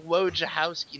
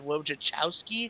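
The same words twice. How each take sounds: First: The ending is said with the c silent. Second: The ending is said with a ch sound. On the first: The speaker believes this is the correct way. The speaker calls it right. "I think it's Wojciechowski, ... I believe that C is silent" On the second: Someone else said it this way. The speaker calls it wrong. "He said Wojciechowski. ... not Chowski"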